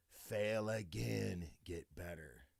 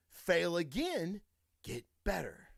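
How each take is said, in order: First: Low, drawn-out, trailing softer; slow, hushed motto. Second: Said in the usual way. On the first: Shown as a demonstration. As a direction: let the mantra sink in, slowly and quietly. Motto repeated slower and lower for emphasis.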